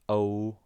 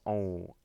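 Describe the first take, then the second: First: The vowel is plain, not nasal. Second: The vowel is nasal.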